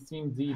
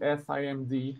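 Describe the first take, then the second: First: The letters are run together as one word. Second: Each letter is spoken separately. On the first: "people just say C M D because it's faster" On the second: "if you pronounce each letter"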